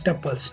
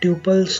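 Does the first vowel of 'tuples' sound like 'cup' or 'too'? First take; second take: cup; too. First: The first vowel sounds like the one in 'cup'. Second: The first vowel sounds like the one in 'too'. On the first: The speaker calls it right. "it's pronounced as tuples" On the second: The speaker calls it wrong. "not tuples"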